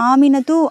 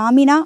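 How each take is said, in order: First: The name ends with a t sound and a vowel. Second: The name ends on a long a vowel. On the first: This is the full written form with the case ending. "ஆமினத்து அப்படின்லாம் கேட்க மாட்டாங்க" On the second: This is the everyday spoken form. "ஆமினா அப்படின்னு தான் கூப்பிடுவாங்க"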